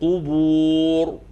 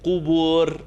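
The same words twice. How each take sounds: First: The final r is heavy and full. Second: The final r is light and thin. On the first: The speaker calls it right. "The ra is heavy" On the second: The speaker calls it wrong.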